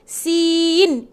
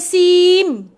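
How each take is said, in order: First: The word ends with the lips open. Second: The word ends with the lips closed. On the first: The speaker calls it right. "Sin. N, N. Sin" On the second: The speaker calls it wrong. "Bukan sim. Bukan tutup mulut"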